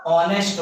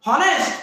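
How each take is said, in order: First: "ऑनेस्ट" low, opening on the vowel; silent H. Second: "हॉनेस्ट" pitched high, H audible; wrongly voiced H. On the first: Teacher giving students the right reading, low "ऑनेस्ट" with silent H. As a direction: say "ऑनेस्ट" with no H at all. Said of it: "क्या होगा?". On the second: Teacher testing students with a misreading, "हॉनेस्ट" with H sounded. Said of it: "हॉनेस्ट पढ़ रहे हैं? जी बिल्कुल नहीं". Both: Shown as a demonstration.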